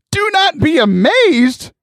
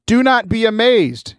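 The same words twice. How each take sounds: First: High, drawn-out disbelieving question; incredulous echo. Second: Said in the usual way. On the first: Acted. Listener throws angel's words back, incredulous. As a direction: throw the words back, pitch soaring, slow. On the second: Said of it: "and then the angel says".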